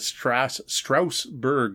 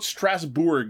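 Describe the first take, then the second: First: The second syllable has an 'ur' vowel. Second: The second syllable has an 'oo' vowel. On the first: The speaker calls it wrong. "is how I was pronouncing it" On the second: The speaker calls it right. "I think that's how it's pronounced, because it's got an OU in there"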